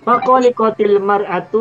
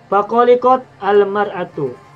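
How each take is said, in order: First: The t takes an i vowel linking into the next word. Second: The t ends the first word with no vowel. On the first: "Kalau mau diwaso boleh, maka dibaca kasroh" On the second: "kotnya tanya sukun"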